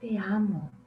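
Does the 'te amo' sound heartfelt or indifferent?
heartfelt. It is said warmly, with real feeling. The speaker truly feels it. "el sentimiento... es totalmente distinto"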